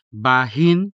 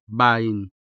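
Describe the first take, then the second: First: Bahin with a full, audible h; clearly sounded h. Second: Bain, ba gliding straight into in; dropped h. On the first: Tutor offers either option, bahin with clearly sounded h. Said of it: "clearly and audibly sound the unstressed ha". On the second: Tutor offers either option, bain with dropped h. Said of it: "ha consonant is much less prominent". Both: Shown as a demonstration.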